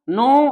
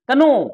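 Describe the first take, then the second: First: The word starts directly with an n sound. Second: The word starts with a k sound before n. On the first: The speaker calls it right. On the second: The speaker calls it wrong.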